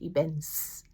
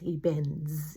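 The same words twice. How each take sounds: First: The word ends with a hissing s sound. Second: The word ends with a buzzing z sound. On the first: The speaker calls it wrong. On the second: The speaker calls it right. "We say it as a zzz"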